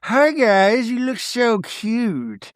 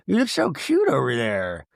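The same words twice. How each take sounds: First: High, slow sing-song coo; cooing at animals. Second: Said in the usual way. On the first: Retold or imitated. Meredith cooing at the bison, slow sing-song. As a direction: coo it out slowly like to a baby. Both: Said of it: "she's like".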